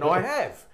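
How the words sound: The voice falls at the end, as a statement.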